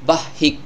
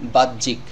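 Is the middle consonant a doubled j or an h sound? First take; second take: h sound; doubled j. First: The middle sound is an h, not a j. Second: The middle sound is a doubled j, no h. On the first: The speaker calls it wrong. "তাহলে শব্দটির উচ্চারণ ভুল হবে" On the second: The speaker calls it right. "দুইটি জ উচ্চারণ করলে শব্দটির উচ্চারণ সঠিক হবে"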